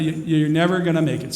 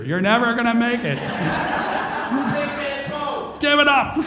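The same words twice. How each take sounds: First: Said in the usual way. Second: High, laughing, mock demotivational call; cracking up while playing a demotivational speaker; laughing mock doom. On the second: Real, not acted. To the audience, laughing through a mock demotivational verdict. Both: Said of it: "demotivational speaker".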